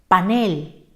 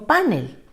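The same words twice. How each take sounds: First: The stress is on the last syllable. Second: The stress is on the first syllable. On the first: The speaker calls it right. "Se dice panel" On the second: The speaker calls it wrong. "y no panel"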